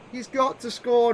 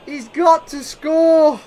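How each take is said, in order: First: Said in the usual way. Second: Loud, slow, higher plea; urgent call. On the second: Real, not acted. Gamer urging his striker on, loud slow plea. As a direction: stretch it out, willing him to score. Repeat after the chance.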